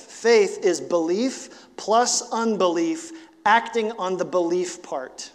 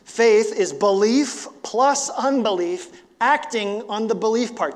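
First: Slow deliberate. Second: "Faith is belief plus unbelief" said slowly, higher and louder; emphatic repeat. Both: Shown as a demonstration. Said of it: "I'll say that again".

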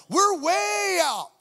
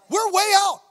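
First: High loud shout, stretched out slowly. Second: High, loud alarmed shout at normal speed. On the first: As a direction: drag each word out while shouting. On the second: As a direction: call it out loud and high, quick. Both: Retold or imitated. Panicked inner cry at the meeting.

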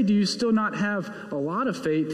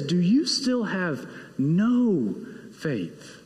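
First: Said in the usual way. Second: "no faith" said slowly and firmly; slow down and lean on "no"; slow stress on no. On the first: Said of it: "He doesn't say". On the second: Shown as a demonstration. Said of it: "He says".

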